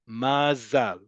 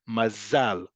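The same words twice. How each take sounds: First: The stress is on the last syllable. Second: The stress is on the last syllable.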